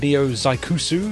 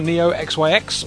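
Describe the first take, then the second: First: XYX is said as one word, Zaikusu. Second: XYX is read out as separate letters. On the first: The speaker calls it right. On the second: The speaker calls it wrong.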